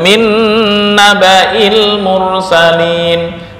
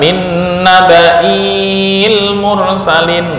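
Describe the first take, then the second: First: The vowel after the glottal stop stays short. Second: The vowel after the glottal stop is drawn long. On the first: The speaker calls it right. "Kalau dilanjut" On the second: The speaker calls it wrong. "nggak boleh dibaca"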